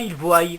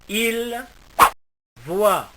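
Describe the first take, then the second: First: The verb ends with an added y-glide sound. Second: The verb ends in a plain vowel sound. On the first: The speaker calls it wrong. "et non pas il voie" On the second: The speaker calls it right. "on prononcera il voit"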